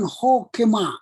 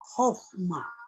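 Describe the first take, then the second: First: A short vowel is heard between k and m. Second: The middle consonant goes straight into m, no vowel. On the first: The speaker calls it wrong. "Jadi bukan hokema" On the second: The speaker calls it right. "Jadi kaf ini tidak dibaca lagi di sini"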